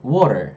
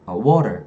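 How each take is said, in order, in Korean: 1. R은 굴리고, T는 부드럽게 발음해요. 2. R은 굴리고, T는 부드럽게 발음해요.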